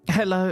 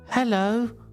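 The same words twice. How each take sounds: First: It is said in a natural, everyday voice. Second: It is said in a put-on character voice. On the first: The speaker calls it wrong. "sorry, wait" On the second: The speaker calls it right. "I've got to channel my inner Yang Yang. You ready? Yang Yang performance"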